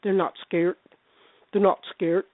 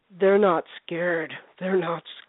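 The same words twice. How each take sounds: First: "scared" said as "skeert", with a hard t ending; mimicked odd pronunciation. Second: Slow, drawn-out "They're not scared", pitched lower; imitated scary man. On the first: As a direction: copy his odd speech, clipping "scared" to "skeert". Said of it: "he was saying scared". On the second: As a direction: drag out "scared" low, mimicking his odd speech. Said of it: "the guy there was going".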